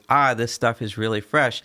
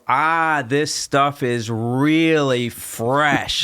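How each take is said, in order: First: The words are said casually, run together. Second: Every word is enunciated very carefully and distinctly.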